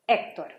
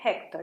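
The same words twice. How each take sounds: First: The name begins directly with the vowel sound. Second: The name begins with an audible h sound. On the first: The speaker calls it right. "It's Hector" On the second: The speaker calls it wrong. "You don't say Hector"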